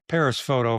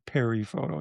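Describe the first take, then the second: First: Paris is said the American way, with the s. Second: Paris is said the French way, without the s. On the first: "from us Midwesterners" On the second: "Yes, you say it right"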